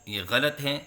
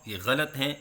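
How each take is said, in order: The two takes are said the same way.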